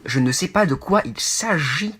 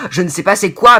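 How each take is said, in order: First: Said in the usual way. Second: "je ne sais pas c'est quoi" pushed much louder; wrong form, louder. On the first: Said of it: "On dit". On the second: Shown as a demonstration. Showing viewers the phrasing they must not say, loudly. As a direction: blurt the wrong phrasing with annoyance. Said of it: "mais on dit pas".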